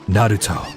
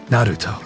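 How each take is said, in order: First: The name is said with a Japanese-style pronunciation. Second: The same.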